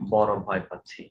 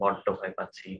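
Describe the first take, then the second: First: The word has a single flapped r sound. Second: The word has a doubled d sound.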